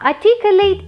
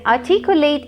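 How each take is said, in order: First: It is said in a British accent. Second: It is said in an American accent. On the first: "articulate is the British pronunciation" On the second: "articulate is the American accent"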